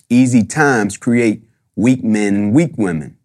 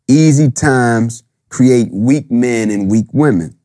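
First: It is said fast. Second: It is said more slowly.

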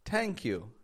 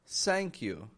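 First: Thank begins with a sound close to T. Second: Thank begins with a sound close to S. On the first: "it makes a sound close to a T" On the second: "Making an S sound"

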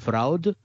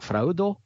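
First: The word ends on a plain d sound. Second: The word ends with an added o vowel.

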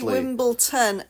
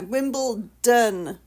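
First: The last syllable starts with a t sound. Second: The last syllable starts with a d sound. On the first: The speaker calls it wrong. "Americans say Wimbledon, and it literally drives me to" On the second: The speaker calls it right. "Don, not Ton"

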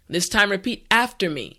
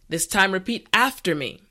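Both takes have the same delivery.

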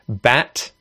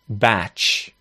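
First: The word ends in a hard T sound. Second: The word ends in a CH sound. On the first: The speaker calls it right. "you need to say it as a hard D or a hard T" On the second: The speaker calls it wrong. "not batch"

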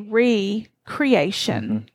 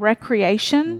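First: The word is said slowly, syllable by syllable. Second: The word is said at normal speed.

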